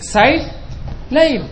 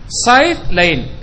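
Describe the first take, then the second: First: The s sound is emphatic and heavy. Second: The s sound is plain and light. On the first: It means summer. "musim panas" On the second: It means sword.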